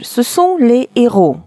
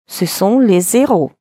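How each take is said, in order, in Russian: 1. Слова произносятся без связующего звука. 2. Слова произносятся со связующим звуком. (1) "связку делать вообще запрещено" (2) "Если сделаем связку"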